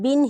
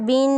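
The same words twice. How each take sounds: First: The vowel is kept short. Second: The vowel is drawn out long. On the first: The speaker calls it right. "बल्कि बिन ही पढ़ा जाए" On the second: The speaker calls it wrong. "बिन ना किया जाए"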